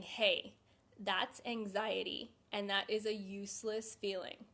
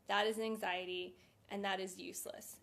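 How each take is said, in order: First: Slow, steady naming of the feeling; talking yourself down calmly; calm self-talk. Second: Calm self-talk. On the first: Demonstrating calm self-talk to anxious viewers, slow and steady. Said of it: "taking a step back and saying". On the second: Coaching viewers through a panic, calm and quietening. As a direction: say it flatly to defuse the panic. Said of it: "take a step back for a second and say". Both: Shown as a demonstration.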